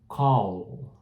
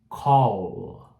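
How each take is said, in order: No difference in how they are said.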